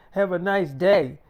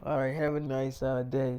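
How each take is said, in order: First: Mocking angry tone. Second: Said in the usual way. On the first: Mackenzie mocking [name]'s goodbye, loud and angry. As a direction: throw his words back at him, then bark the insult. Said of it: "she had that fucking tone with me".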